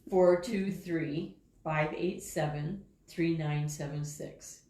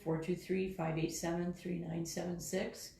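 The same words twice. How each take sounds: First: The number is said at a slower pace. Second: The number is said at a quicker pace.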